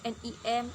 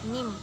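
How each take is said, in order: First: Each letter is named separately, one by one. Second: The letters are read together as one word. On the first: The speaker calls it wrong. "kita tidak mungkin membacanya N I M, itu kan terlalu ribet" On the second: The speaker calls it right. "agar fleksibel kita bisa membacanya dengan N I M"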